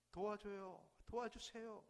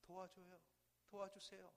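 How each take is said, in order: First: Urgent cry for help. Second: Echo from afar. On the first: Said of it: "아들은 다급하게 외칩니다". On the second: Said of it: "한 목소리가 들려". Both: Acted.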